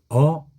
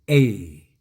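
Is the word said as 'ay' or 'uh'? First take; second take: uh; ay. First: The word is said as a short 'uh'. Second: The word is said as a long 'ay'. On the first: "어 하기도 하고" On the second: "A라고 발음해도 됩니다"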